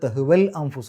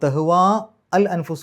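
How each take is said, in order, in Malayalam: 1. 'al'ക്ക് മുമ്പുള്ള സ്വരം ഹ്രസ്വമാണ്. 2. 'al'ക്ക് മുമ്പുള്ള സ്വരം നീട്ടി പറയുന്നു.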